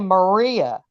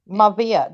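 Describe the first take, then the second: First: The middle consonant is said as an R. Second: The middle consonant is said as a V. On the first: This is not how a Russian says the name. "They don't say Maria" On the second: This is how a Russian says the name. "That's how they say it. The R turns to a V"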